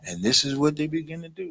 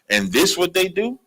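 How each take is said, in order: First: It is read in a calm, plain tone. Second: It is read in an angry tone.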